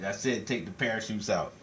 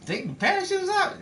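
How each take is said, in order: First: Calm villain doubling down; cold insistence. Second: High incredulous question; stunned, can't believe the order; shocked disbelief. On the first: Villain repeats the order. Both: Acted.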